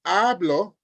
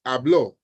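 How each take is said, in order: First: "hablo" as HA-blo, weight on the first syllable; first-syllable stress. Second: "hablo" as ha-BLO, weight on the last syllable; last-syllable stress. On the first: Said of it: "on the first syllable". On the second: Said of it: "on the second or the last syllable". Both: Shown as a demonstration.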